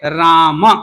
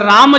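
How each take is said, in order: First: The word ends with a short final a vowel. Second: The word ends on the m sound, no final vowel. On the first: The speaker calls it right. "उच्चारण क्या होना चाहिए?" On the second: The speaker calls it wrong. "मकार उत्तरवर्ती अकार को हम छोड़ रखा है"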